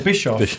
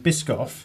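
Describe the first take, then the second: First: The middle is said with a 'sh' sound. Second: The middle is said with a 'sk' sound. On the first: The speaker calls it wrong. "What was I saying before?" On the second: The speaker calls it right. "You are now"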